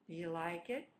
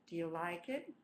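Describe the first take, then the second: No difference in how they are said.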